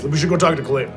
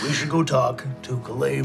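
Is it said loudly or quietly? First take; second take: loudly; quietly. First: It is said loudly. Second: It is said quietly.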